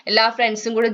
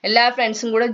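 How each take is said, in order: Both takes have the same delivery.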